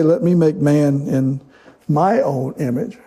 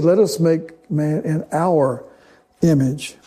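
First: "me" and "my" stressed, said slowly; wrong version, stress on me. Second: "us" stressed, slow and firm; right version, stress on us. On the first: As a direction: hit "me" and "my" as the wrong take. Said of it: "He doesn't say". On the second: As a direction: land hard on "us". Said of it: "did you notice that God didn't say that". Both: Shown as a demonstration.

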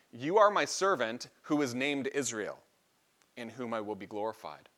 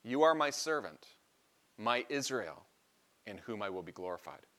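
First: "You are my servant who is named Israel" read as one flowing phrase; first reading, stress on are. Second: "You are my servant, my Israel" with a pause and weight on "my" before "Israel"; second reading, emphatic my. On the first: Preacher reads the verse the first way to his congregation, stressing "are". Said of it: "The first way is". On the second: Preacher contrasts the second reading for the congregation, pausing and stressing "my". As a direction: lean on "my" in "my Israel", pause between phrases. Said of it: "You could read it like this".

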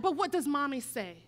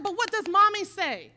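First: Said in the usual way. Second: Firm raised mom voice, pressing the question; louder insisting mom. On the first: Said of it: "And I'm like". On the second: Retold or imitated. Mother pressing her bullied son, louder and firm. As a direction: push him to answer, louder. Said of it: "And I said".

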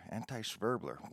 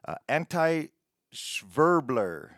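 First: Much softer, muttered Anti-Schwerbler to himself; quiet repeat. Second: Said in the usual way. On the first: Real, not acted. Host repeating the odd title to himself, muttered softly. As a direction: echo Anti-Schwerbler under your breath, puzzled.

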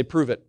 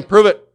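First: Said in the usual way. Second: High and loud, the call to repeat; louder call. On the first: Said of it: "Everybody say". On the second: Shown as a demonstration. Pastor urging the church to answer louder, loud and high. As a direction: shout it back with more force. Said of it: "Come on, say it again".

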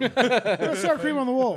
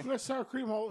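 First: Slow, very loud bellow; mock outraged yell. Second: Loud, higher outburst; loud complaint. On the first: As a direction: shout the complaint slowly for all to hear. Repeated yelled complaint, slower. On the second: Retold or imitated. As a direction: start yelling the complaint. First take of the yell.

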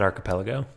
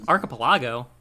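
First: "archipelago" with PEL stressed; usual pronunciation. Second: "Archipelago" with an "ah" in the stressed next-to-last syllable; alternative pronunciation. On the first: Host gives own pronunciation, "archipelago" with PEL stressed. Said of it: "I pronounce it archipelago". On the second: Co-host questions how to say the word, "Archipelago" with LAH stressed. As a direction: say "Archipelago" as ar-kuh-puh-LAH-go. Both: Shown as a demonstration.

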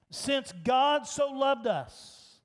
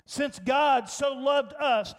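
First: Since leaned on slowly; slow and lean on the word Since; stress on Since. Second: Said in the usual way. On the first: Shown as a demonstration. Preacher showing that if means Since. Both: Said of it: "It means since".

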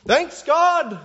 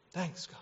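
First: High, loud cheer of thanks; gleeful thanks. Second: Very soft, half-hearted thanks; shallow thanks. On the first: Preacher mimics people thanking God for gifts, gleeful shout. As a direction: shout thanks like an excited kid. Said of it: "like this eight-year-old thanking his grandparents". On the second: Preacher mimics routine churchgoers, hushed half-hearted thanks. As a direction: mumble it as going through the motions. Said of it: "thanking God in this shallow way". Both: Acted.

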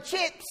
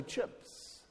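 First: "chips" with a tight ee-like i, near cheeps; Australian pronunciation. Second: "chips" with a central vowel, near chups; New Zealand pronunciation. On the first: New Zealander contrasting Australian speech with his own, Australian pronunciation. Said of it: "say particular words a different way". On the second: New Zealander showing his own way of saying it, New Zealand pronunciation. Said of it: "I'll say chips". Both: Shown as a demonstration.

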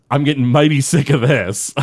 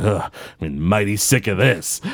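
First: Said in the usual way. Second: Put-on grumpy old Jasper. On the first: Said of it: "I use that phrase". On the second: Jasper fed up with the happy thoughts, lightly grumbling. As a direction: sigh out your fed-up line like a cranky old man. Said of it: "He's like".

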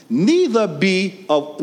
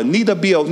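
First: Said in the usual way. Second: Louder call. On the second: Shown as a demonstration. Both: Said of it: "I want y'all to say it louder".

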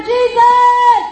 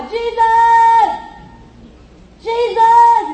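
First: Very loud, high, long-held yell; full-force cry over the crowd; crying out louder. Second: High, sustained shout for help; crying out loud. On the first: Hushed blind man calls Jesus harder, desperate shout. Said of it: "cry out even louder". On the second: Blind man calls to passing Jesus, crying out loud. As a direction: call out loud, drawing out the name. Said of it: "starts to cry loud". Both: Acted.

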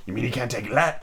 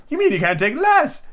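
First: Said in the usual way. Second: High, theatrical correction; Hatter character voice. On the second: Acted. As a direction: say it high and pointed. Hatter voice, retake.

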